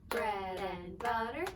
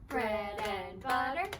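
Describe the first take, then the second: No difference in how they are said.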